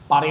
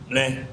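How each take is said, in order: First: It is said in a clear, normal voice. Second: It is said in a nasal, unclear voice. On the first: The narrator is clarifying the word. "pare yun ha" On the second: A friend with a speech impairment is speaking. "Si Toto pare ay ngongo. ... Sabi niya, ple"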